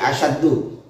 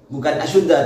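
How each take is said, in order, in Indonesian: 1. Kata itu diakhiri dengan vokal 'u'. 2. Kata itu diakhiri dengan vokal 'a'. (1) "dibaca rofa"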